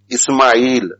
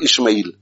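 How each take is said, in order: First: The middle consonant is an s sound. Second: The middle consonant is an sh sound. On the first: The speaker calls it right. "pronounce it correctly. Ismail" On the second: The speaker calls it wrong. "not Ishmael"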